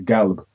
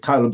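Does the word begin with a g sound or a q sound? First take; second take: g sound; q sound. First: The word begins with a hard g sound. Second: The word begins with a deep q sound. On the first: "they would say galb" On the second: "they wouldn't say qalb"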